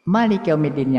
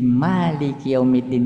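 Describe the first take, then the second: First: The first vowel of Malik is kept short. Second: The first vowel of Malik is held long. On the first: "yang pendek juga boleh" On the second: "yang panjang boleh"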